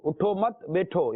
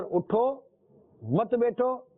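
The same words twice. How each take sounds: First: उठो मत joined, then a break before बैठो; group उठो मत as one command, then बैठो; pause after मत. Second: High उठो, pause, मत बैठो together; pause after उठो. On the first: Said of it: "यानी कि उठो नहीं". (उठो मत पर ठहर कर, फिर बैठो) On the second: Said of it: "यानी उठे रहो". (उठो पर ठहर कर, फिर मत बैठो) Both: Shown as a demonstration.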